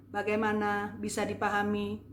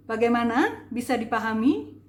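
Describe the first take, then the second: First: "bagaimana bisa dipahami" on a level, unstressed tune; no intonation. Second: Louder, "bagaimana" and "dipahami" lifted in rising tune; questioning intonation. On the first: Coach showing what confuses people, monotone "bagaimana bisa dipahami". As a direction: say "bagaimana bisa dipahami" without lifting any word. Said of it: "Bukannya begini". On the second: Speaker putting a question to audience, intoned "bagaimana". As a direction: ask it emphatically, lifting "bagaimana" and "dipahami". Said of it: "Itu intonasi". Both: Shown as a demonstration.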